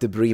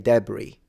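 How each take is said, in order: First: The word is said with an American pronunciation. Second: The word is said with a non-American pronunciation. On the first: This is the borrowed way the speaker prefers. "but I like debris more. I think it sounds better" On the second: This is how the speaker would say it naturally. "Naturally, I would say debris"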